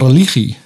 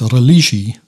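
First: The consonant before -ie is a throaty g. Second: The consonant before -ie is a soft zh. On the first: The speaker calls it right. "Maar je zegt wel religie" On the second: The speaker calls it wrong. "Je zegt niet religie"

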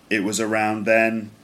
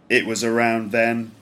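The two takes are said the same way.

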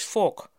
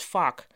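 First: The vowel is a rounded o-like sound. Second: The vowel is an open, a-like American sound. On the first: "Een tweede mogelijke uitspraak van fuck is fok" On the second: "proberen om hun fuck zo Amerikaans mogelijk te laten klinken en daarom iets zeggen dat klinkt als fuck"

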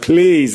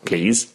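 First: It is said in a pleading, begging tone. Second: It is said in a polite, light tone.

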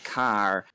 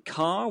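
First: The final R is clearly pronounced. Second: The final R is not pronounced. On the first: "somebody in Lancashire, not everyone, but some people would say" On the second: "in my accent, that R isn't pronounced"

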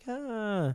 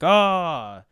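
First: It is a scared, cowardly scream. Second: It is a bold, fierce Viking war cry.

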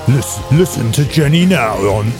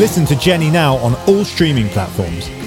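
First: It is said in a cool movie-star voice. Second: It is said in a normal voice.

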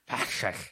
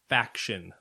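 First: The word sounds slurred, as if through a retainer. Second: The word is said clearly without any slurring. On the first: The speaker calls it wrong. "I say it with, mouth gear in. Or like a retainer or something" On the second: The speaker calls it right. "There we go"

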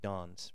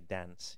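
First: It is said in a southern English accent. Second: It is said in a northern English accent. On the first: "certain words in the southern part of England, surrounding London, you would pronounce with a hard R sound, like dance" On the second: "Whereas in the northern part of England, Liverpool, Manchester, and so on, they would say dance"

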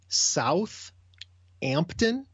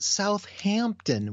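First: The middle H sound is not pronounced. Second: The middle H sound is pronounced.

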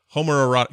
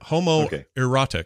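First: The word is said quickly and runs together. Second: The word is said slowly and carefully.

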